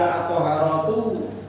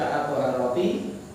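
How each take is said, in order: First: The word ends with an 'oo' vowel. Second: The word ends with an 'ee' vowel. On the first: "Dibaca at-thaharatu, ya maknanya bersuci" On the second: "Dibaca at-thaharati, maknanya ya bersuci"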